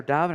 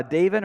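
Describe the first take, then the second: First: "Davin" with an open ah, DAH-vin; alternative pronunciation guess. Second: "Davin" with a long A, DAY-vin; first pronunciation guess. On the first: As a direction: say "Davin" with the first vowel as in father. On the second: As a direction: say "Davin" to rhyme with raven. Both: Shown as a demonstration. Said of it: "I forget how to pronounce it".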